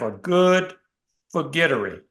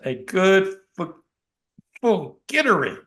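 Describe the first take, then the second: First: Forgettery is said plainly without special emphasis. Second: Forgettery is said with strong, deliberate emphasis.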